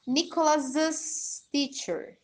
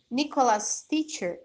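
First: Nicholas's with an extra "iz" syllable, Nicholas-iz; Nicholas's teacher. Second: Nicholas' said without an extra syllable, like Nicholas; Nicholas' teacher, no added "iz" sound. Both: Shown as a demonstration. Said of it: "Muda um pouquinho a pronúncia".

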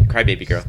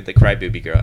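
First: Crybaby said clearly as "cry-bay-by"; corrected. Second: Crybaby said like "cry-bu-by", with an oo sound in the middle; mispronounced. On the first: Host correcting the nickname to a clear "cry-bay-by". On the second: Host stumbling on the nickname, saying "cry-bu-by". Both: Real, not acted. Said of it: "I mean, Crybaby Girl".

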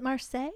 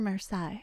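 First: Marseille ending in "say"; Marseille as mar-SAY. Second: Marseille ending in "sigh"; Marseille as mar-SIGH. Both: Shown as a demonstration. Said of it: "Is it Marseille or Marseille?".

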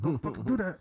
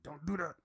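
First: Louder, higher second warning with fucking stressed; a fed-up parent snapping the second time; angry parent. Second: A light parental warning at normal volume; calm first warning like a parent; mild parent scolding. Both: Retold or imitated. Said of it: "political mom dad type thing".

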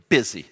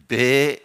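First: Said in the usual way. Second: Busy stretched into four syllables; drawn-out busy. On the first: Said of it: "But it's not two syllables". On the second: Shown as a demonstration. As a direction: say busy slowly, every syllable long. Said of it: "they make it like four syllables".

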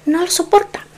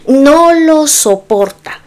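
First: Said in the usual way. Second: "no lo soporta" slowed right down, each word pressed; weighted, drawn-out "no lo soporta"; slow emphatic repeat. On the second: Real, not acted. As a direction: lean hard on "no lo soporta", slowly.

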